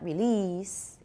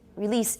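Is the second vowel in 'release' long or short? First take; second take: long; short. First: The second vowel is drawn out long. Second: The second vowel is clipped short. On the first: The speaker calls it wrong. "it gets long" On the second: The speaker calls it right. "It's really short because of the S"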